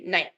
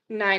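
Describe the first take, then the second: First: It is said in a harsh, stern way. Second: It is said in a nice, gentle way.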